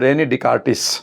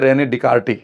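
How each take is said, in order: First: The name ends with a sounded s. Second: The name ends without any s sound.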